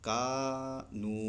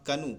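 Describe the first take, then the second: First: کانو said very slowly with the a held long; slow stretched vowel. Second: کنو said with a short clipped a, the wrong way; the mistake: rush کنو with a short a; wrong clipped vowel. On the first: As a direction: hold the a of کانو long and calm. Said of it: "آرام سے". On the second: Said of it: "کنو نہیں پڑھیں گے". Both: Shown as a demonstration.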